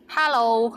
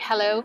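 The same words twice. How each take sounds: First: It is said with a Cantonese accent. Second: It is said with an English accent.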